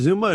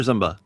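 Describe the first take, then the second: First: Zumba said ZOOM-ba; Zumba, first vowel as in zoom; first pronunciation option. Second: Zumba said ZUM-ba; Zumba, first vowel as in thumb; second pronunciation option. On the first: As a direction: say Zumba with a long oo. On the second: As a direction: say Zumba with a short uh. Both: Shown as a demonstration. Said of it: "Is it Zumba or Zumba?".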